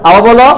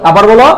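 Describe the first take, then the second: Both takes have the same delivery.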